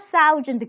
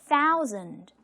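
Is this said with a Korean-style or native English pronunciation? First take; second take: Korean-style; native English. First: It is said Korean-style, like the syllables of 싸우자. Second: It is said with a native English pronunciation. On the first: The speaker calls it wrong. "싸우자, thousand" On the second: The speaker calls it right. "원어민이 thousand, thousand라고 했을 때"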